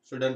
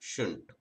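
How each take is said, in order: First: The d sound is clearly pronounced. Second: The d sound is dropped entirely. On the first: This is the careful form used while learning. "షుడంట్ అని నేర్చుకోండి" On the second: This is the form used in fluent speech. "బాగా fluent వచ్చిన తర్వాత షుంట్"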